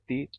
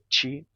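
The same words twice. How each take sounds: First: The T is a plain, pure T sound. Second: The T is palatalized into a 'ch' sound. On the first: "no caso do meu sotaque, eu tenho tio, que é o som puro do T" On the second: "Em outros sotaques você tem"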